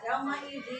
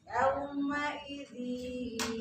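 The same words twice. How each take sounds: First: The nasal sound is not merged and cut short. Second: The nasal sound is merged and held long. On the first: The speaker calls it wrong. "jangan ada ... itu tidak ada penekanan, tidak ada masuknya kurang" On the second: The speaker calls it right. "dimasukkan dan didengung"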